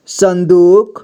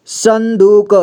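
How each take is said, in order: First: Said in the usual way. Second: संदूक sounded out as san-doo-ka; syllable-by-syllable reading. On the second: Shown as a demonstration. Teacher showing learners how to join letters, संदूक as san-doo-ka. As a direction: voice the final vowel of संदूक. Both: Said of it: "जोड़ जोड़ करके पढ़ना है".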